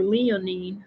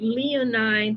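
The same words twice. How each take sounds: First: "leonine" with an EE in the last syllable; leonine ending in "neen". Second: "leonine" with a long I in the last syllable; leonine ending in "nine". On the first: Reader offers the other pronunciation, "leonine" ending like "neen". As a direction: say "leonine" so its ending rhymes with "seen". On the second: Reader tries out an uncertain word, "leonine" ending like "nine". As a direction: say "leonine" so its ending rhymes with "mine". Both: Shown as a demonstration. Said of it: "however you pronounce that".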